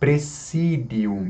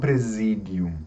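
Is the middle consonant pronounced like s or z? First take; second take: s; z. First: The middle consonant sounds like s. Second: The middle consonant sounds like z. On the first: The speaker calls it right. "ele não tem o som de Z, tem o som de S. Então, presidium" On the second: The speaker calls it wrong. "e não presidium"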